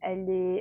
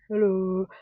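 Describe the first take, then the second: First: It is said with a French accent. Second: It is said in the speaker's own accent.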